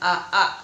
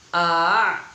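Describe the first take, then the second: First: The second hamza sound is pronounced fully and clearly. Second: The second hamza sound is softened and blurred. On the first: The speaker calls it wrong. "bukan aa" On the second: The speaker calls it right. "Huruf yang kedua itu dibaca samar. ... cara membacanya adalah a"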